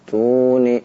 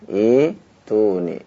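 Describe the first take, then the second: First: The word is linked to the preceding t sound. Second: The word starts on its own with long i. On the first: The word is read continuing from the previous word. "kalau membacanya wasol ya, maka wasolnya disambung dengan huruf ta yang ada di hadapannya" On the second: The reading starts fresh at this word. "ketika dia memulai maka dijadikan badal"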